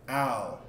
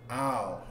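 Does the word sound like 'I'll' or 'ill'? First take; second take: I'll; I'll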